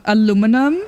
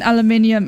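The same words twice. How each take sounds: First: "aluminum" said the American way, stressed on "lu"; "aluminum" in four syllables, American style; American pronunciation. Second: "aluminium" said the British way, stressed on "min"; "aluminium" in five syllables, British style; British pronunciation. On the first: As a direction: say "aluminum" as a-LOO-mi-num. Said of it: "And I said". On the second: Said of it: "nearly the same sentence". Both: Shown as a demonstration.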